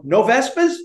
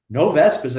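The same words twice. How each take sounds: First: NO VESPAS lifted high into a question. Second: NO VESPAS stated with a falling end; confirming. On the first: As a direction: ask "no Vespas" with a clear rise at the end. Cop offers the super an out. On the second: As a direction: echo "no Vespas" as a level-pitched statement that drops. Super repeats it back as statement. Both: Retold or imitated.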